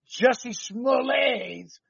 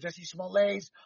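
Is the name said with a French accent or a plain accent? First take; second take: plain; French. First: The name is said in a plain English accent. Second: The name is said with a French accent.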